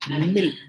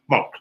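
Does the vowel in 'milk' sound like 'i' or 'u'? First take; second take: i; u. First: The vowel is a clear short i sound. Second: The vowel sounds like a short u sound. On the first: "non-New Zealanders pronounce that particular product milk" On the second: "New Zealanders tend to substitute the I for a U"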